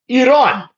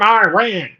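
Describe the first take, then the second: First: It is said with an Arabic-style pronunciation. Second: It is said in a Southern American drawl. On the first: The speaker calls it right. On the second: The speaker calls it wrong. "With your stupid longhorn foghorn accent"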